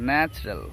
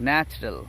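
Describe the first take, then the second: The two takes are said the same way.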